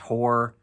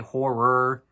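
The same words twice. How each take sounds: First: The word is said quickly and squashed together. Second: Both syllables are said fully and clearly. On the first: The speaker calls it wrong. "if you talk quickly, it comes out as horror" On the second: The speaker calls it right. "you try to say horror"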